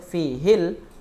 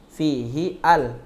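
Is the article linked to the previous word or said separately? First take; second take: linked; separate. First: The article runs straight into the previous word. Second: The article starts a separate syllable after a break. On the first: "kalau antum baca wasol fihil khuruju" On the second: "kalau antum tidak mau baca wasol berarti fihi al"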